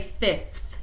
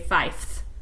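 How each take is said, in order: First: The word ends with a clear th sound. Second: The word ends without the th sound. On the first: The speaker calls it right. "So you say fifth" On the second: The speaker calls it wrong. "You don't say fifth"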